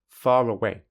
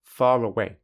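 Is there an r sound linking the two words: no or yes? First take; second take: yes; yes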